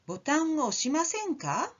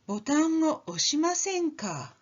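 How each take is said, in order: First: The pitch rises at the end. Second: The pitch falls at the end. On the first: It is an invitation to do it. "means won't you press the button?" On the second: It assumes the listener won't do it. "is you won't press the button, will you? That sounds very patronizing"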